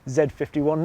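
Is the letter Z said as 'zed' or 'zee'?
zed. The letter Z is said as 'zed'. It is the British way of saying it. The speaker calls it right. "obviously say Z fifty-one ... because it's coming to the U K"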